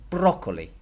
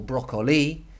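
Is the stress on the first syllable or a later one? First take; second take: first; later. First: The stress falls on the first syllable. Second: The stress falls on a later syllable. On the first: The speaker calls it right. "It's going to be broccoli, broccoli, because that's where the accent is" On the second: The speaker calls it wrong. "the stress of the word is not going to be, for example, broccoli"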